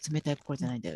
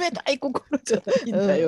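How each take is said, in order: First: It is said at a normal pitch. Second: It is said in a higher voice.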